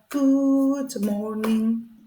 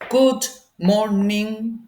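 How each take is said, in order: First: The voice is timid, soft and shaky. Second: The voice is firm, confident and strong. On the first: The speaker is embarrassed and about to ask a favor. "He had a very shy and maybe shaking voice" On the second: The speaker feels powerful and superior. "who was a rich and strong man"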